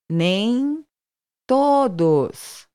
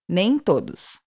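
First: It is said slowly, broken into parts. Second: It is said fast, at natural speed.

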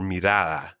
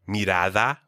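First: The d sound is nearly or fully dropped. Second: The d sound is softly but clearly heard.

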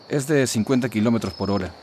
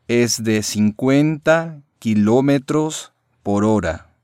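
First: It is said at normal speed. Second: It is said slowly.

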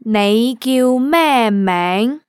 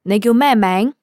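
First: It is said slowly. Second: It is said at normal speed.

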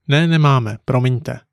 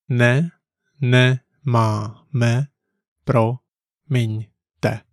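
First: It is said smoothly at normal conversational speed. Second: It is said slowly, one syllable at a time. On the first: "Once more at natural speed" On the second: "Let's break it down"

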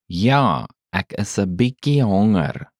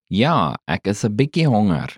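First: It is said slowly. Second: It is said at normal speed.

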